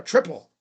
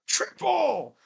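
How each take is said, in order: First: Said in the usual way. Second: High, drawn-out exclamation; high celebratory call; exclaimed call. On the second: Real, not acted. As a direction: sing out "Triple!" high, falling at the end. Word repeated as an exclamation.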